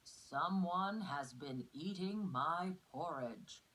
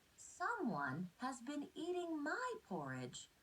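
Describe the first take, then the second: First: It is said in a big, deep voice. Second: It is said in a tiny, small voice.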